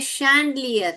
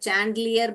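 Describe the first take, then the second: First: The word begins with an sh sound. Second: The word begins with a ch sound. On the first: The speaker calls it right. "शैंडलियर है" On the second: The speaker calls it wrong. "बहुत लोग इस च को डाल देते हैं"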